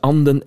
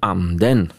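First: The word has a single falling pitch accent. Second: The word has a double-peaked pitch accent. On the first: It means the duck. "Er is een verschil tussen anden en anden" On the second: It means the spirit. "Er is een verschil tussen anden en anden"

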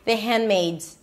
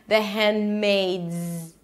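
First: The D sound is dropped and the phrase is quick. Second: The D sound is held briefly and the phrase is careful. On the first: "Sometimes you can even drop it and no one will notice if you say it super fast" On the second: "if you want to pronounce it properly, the hand, the D is a held D"

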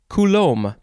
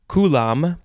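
First: The second syllable has a long 'loam' vowel. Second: The second syllable has a short 'lom' vowel. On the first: "or loam" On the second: "The second syllable is either lom"

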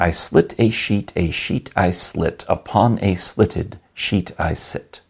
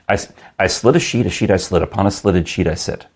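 First: It is said at a normal, unhurried pace. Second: It is said quickly, at a fast pace.

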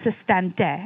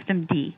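First: The term is said with French pronunciation. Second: The term is said with English pronunciation.

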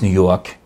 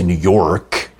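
First: The final R is dropped, New York style. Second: The final R in York is pronounced.

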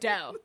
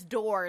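First: The final R sound is dropped entirely. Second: The final R sound is clearly pronounced. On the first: The speaker calls it wrong. "not dough. Because you can't make the R" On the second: The speaker calls it right. "the word is door"

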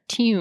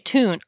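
First: Tune is said in a posh accent. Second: Tune is said in a plain American accent. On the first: The speaker calls it right. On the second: The speaker calls it wrong.

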